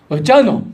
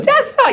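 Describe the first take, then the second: First: It is said in a suspicious, wary tone. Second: It is said in a warm, welcoming tone.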